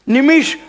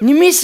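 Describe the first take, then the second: First: The final sh sound is retroflex. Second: The final sh sound is palatal. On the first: The speaker calls it right. "श श पोटफोड्या श" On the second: The speaker calls it wrong. "निमिष नाही sir"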